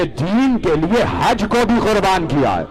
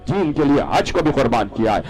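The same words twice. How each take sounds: First: High, fervent declaration; impassioned climax. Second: Said in the usual way. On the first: Real, not acted. Preacher revealing the greatest sacrifice, fervent and high. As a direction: drive the point home with a raised, ringing pitch. Climax, then repeated calmly.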